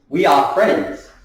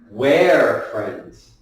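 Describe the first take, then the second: First: It starts with two separate full words. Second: It starts with one shortened word. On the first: "We are. That is the two words" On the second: "Make it smaller. So where"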